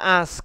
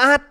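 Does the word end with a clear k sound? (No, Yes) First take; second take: Yes; No. First: It ends with clear s and k sounds. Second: It ends with a short t-like sound. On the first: The speaker calls it right. "a xong sờ xong k" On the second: The speaker calls it wrong. "Còn hơn là ông phát âm là át"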